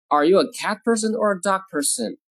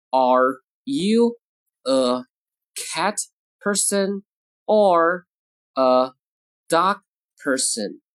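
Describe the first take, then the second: First: Said in the usual way. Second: Each word separate, with a pause after it; word-by-word model. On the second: Shown as a demonstration. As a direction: dictate it slowly, one word at a time. Teacher models sentence word by word.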